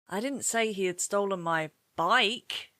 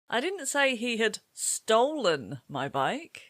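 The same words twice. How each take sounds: First: The word bike carries the main stress. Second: The word stolen carries the main stress. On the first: He stole something else, not the bike. "What has he stolen then" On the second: He may have taken it some other way, like borrowing. "Perhaps he borrowed it and he's going to bring it back later"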